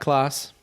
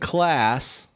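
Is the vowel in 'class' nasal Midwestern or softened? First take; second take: soft; nasal. First: The A vowel is softened, more British-sounding. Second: The A vowel is nasal and Midwestern. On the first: "Like I'd soften it" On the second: "instead of saying class"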